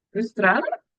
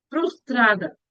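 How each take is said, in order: First: "Frustrada" with a questioning rise at the end. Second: Said in the usual way. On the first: Real, not acted. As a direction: check the word "Frustrada" as if unsure of it. Checks her own word, unsure.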